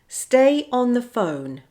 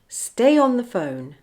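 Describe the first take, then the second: First: The words are said separately, without linking sounds. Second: The words run together with a linking sound. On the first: "without linking" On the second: "with the linking"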